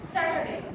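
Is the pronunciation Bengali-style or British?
British. It uses a British-style pronunciation. "But in the British way"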